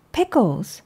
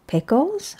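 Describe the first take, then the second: First: PICKLES said as a statement, pitch falling. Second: PICKLES rising high into a question; puzzled question. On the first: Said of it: "Then Mom said". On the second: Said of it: "I said". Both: A narrator's reading.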